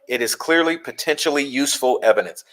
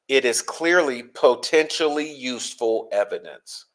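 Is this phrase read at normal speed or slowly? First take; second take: normal; slowly. First: It is read at a normal reading pace. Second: It is read slowly with careful articulation.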